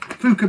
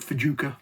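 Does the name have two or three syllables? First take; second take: two; three. First: The name is said with two syllables. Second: The name is said with three syllables. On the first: The speaker calls it right. "I think is how they pronounce it" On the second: The speaker calls it wrong. "for a while I called it Fajuka"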